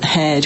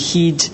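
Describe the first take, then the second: First: The vowel is a short e sound. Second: The vowel is a long ee sound.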